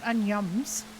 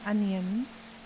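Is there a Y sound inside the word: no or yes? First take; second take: yes; no. First: The word is said with a Y sound. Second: The word is said without a Y sound. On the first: The speaker calls it wrong. "not onions" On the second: The speaker calls it right. "I mean onions"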